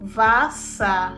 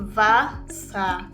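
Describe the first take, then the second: First: The word begins with a V sound. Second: The same.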